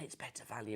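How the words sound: The phrase is spoken in a whisper. The speaker calls it wrong. "why am I whispering that?"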